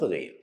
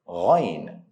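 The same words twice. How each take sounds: First: The sound is said straight, without any curve. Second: The sound is curved with a slight tonal movement. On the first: The speaker calls it wrong. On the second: The speaker calls it right. "add tonation or curve them a little bit"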